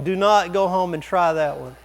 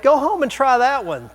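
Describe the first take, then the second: First: Said in the usual way. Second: High, loud mock encouragement; joking dare. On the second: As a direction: egg them on in jest. Joking dare, then taken back.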